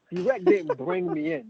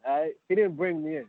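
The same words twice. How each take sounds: First: Didnt shot high and slow, hammered home; stress on didn't. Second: Said in the usual way. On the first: Shown as a demonstration. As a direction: hit didnt hard and high to correct the record. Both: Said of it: "let's set some things straight".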